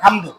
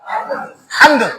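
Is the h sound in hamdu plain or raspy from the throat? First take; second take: plain; raspy. First: The h is a plain, light breathy sound. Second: The h is raspy, from the middle throat. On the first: All incapacity belongs to God. The speaker calls it wrong. "যদি এখান থেকে না নিয়ে যদি এখান থেকে বলেন" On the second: All praise belongs to God. The speaker calls it right. "গলার এই যে হলক থেকে মাঝখান থেকে"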